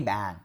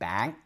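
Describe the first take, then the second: First: It is said with the tone of 'table'. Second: It is said with the tone of 'friend'. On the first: The word means table. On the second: The word means friend. "my friend, is you are my bang"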